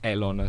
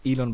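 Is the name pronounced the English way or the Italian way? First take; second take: Italian; English. First: The name is pronounced the Italian way. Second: The name is pronounced the English way. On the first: "but it's Elon" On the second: "in Italian it's not Elon"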